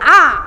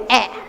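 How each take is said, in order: First: The vowel is a long open 'aa' sound. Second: The vowel is a mid front 'e' sound. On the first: The speaker calls it right. "आ का उच्चारण आ" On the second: The speaker calls it wrong. "वे आ को ए बोलेंगे"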